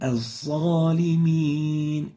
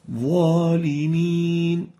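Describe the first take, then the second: First: The key consonant sounds like a z or s. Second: The key consonant sounds like an emphatic th. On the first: The speaker calls it wrong. "it's a mixture of a sa and a za" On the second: The speaker calls it right. "va, not sa, not za"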